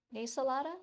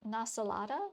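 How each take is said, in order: First: "Nasalada" opening on "nay"; pronounced with NAY. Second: "Nasalada" opening on an open "nah"; pronounced with NA. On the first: Reader trying another pronunciation, "Nasalada" with "nay" first. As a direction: say "Nasalada" as a question, starting "nay". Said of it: "nay or sa, na". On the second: Reader checking a pronunciation, "Nasalada" with "nah" first. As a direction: say "Nasalada" as a question, starting "nah". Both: Shown as a demonstration.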